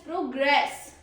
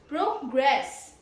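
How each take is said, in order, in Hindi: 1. बलाघात दूसरे शब्दांश पर है। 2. बलाघात दूसरे शब्दांश पर है।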